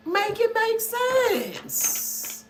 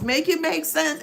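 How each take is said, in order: First: High and very slow, stretching each word; drawn-out exasperated plea. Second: Said in the usual way. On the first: Shown as a demonstration. Exasperated reader begging viewers to make it make sense, drawn out high and slow. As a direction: plead slowly, as if begging for logic.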